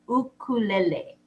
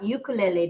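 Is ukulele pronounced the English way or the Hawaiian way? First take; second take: Hawaiian; English. First: The word has a Hawaiian-style pronunciation. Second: The word has an English-style pronunciation. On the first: The speaker calls it right. "The Hawaiian pronunciation is" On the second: The speaker calls it wrong. "it's not ukulele now"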